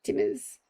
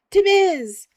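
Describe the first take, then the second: First: Half-whispered as the name comes to mind; muttered to self. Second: Much higher, louder triumphant shout; excited shout. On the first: Remembering the coffee shop name, muttered to self. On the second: Shouting the coffee shop name to chat, excited. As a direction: blurt it out as it clicks. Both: Real, not acted.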